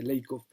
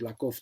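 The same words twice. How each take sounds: First: "Lakoff" said LAY-kof; current English pronunciation. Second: "Lakoff" said LAH-kof; "Lakoff" read as spelt, lah-kof; old Spanish pronunciation. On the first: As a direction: give "Lakoff" an English "ay" vowel. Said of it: "ahora se dice Lakoff". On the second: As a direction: give "Lakoff" an open Spanish A. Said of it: "nosotros decíamos Lakoff toda la vida". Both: Shown as a demonstration.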